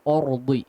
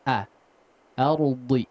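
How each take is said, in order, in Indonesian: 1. Vokal pertama adalah o yang bulat dan berat. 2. Vokal pertama adalah a yang penuh dan terbuka. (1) "jangan ordi ya. Or enggak" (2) "Hamzahnya difathahkan dulu dengan sempurna"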